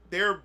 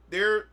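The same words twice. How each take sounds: The two takes are said the same way.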